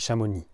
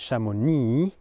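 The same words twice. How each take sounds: First: The final syllable is cut short. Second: The final syllable is drawn out. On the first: The speaker calls it right. "We cut it short" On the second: The speaker calls it wrong. "We don't say chamonix"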